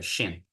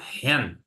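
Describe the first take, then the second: First: The word begins with a sh sound. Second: The word begins with a rasping throat sound. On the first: The speaker calls it wrong. "não se fala Shem" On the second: The speaker calls it right. "O C H não tem som de sh, tem som de r"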